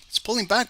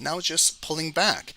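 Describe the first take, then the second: First: "back" pushed up higher for emphasis; higher emphatic repeat. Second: Said in the usual way. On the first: Real, not acted. Trader stressing to viewers that price is pulling back, higher. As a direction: repeat it higher to drive the point home.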